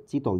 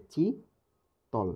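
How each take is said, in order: First: Said in the usual way. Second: "চিতল" as a long, high চি, then তল dropping; split into syllables. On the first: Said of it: "কীভাবে ভাঙা যায় কি ভাঙা যায় না". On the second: Shown as a demonstration. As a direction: stretch চি upward in "চিতল", pause, then say তল. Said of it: "এখানে অক্ষর কয়টা চিন্তা করেন".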